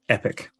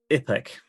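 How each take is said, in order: First: The vowels sound like a standard accent. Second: The vowels sound like a New Zealand accent. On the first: "which is epic, like the word" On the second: "I can say one word in New Zealand"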